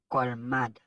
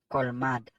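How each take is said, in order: No difference in how they are said.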